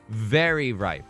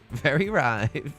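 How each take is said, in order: First: It is said in a normal voice. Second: It is said in a put-on Borat accent.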